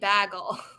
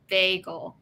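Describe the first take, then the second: First: The first syllable sounds like "bag". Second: The first syllable sounds like "bay". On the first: This is how the other person says it. "like a bag, and then adding el to the end" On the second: This is how New Yorkers say it. "Baymax, but bagel"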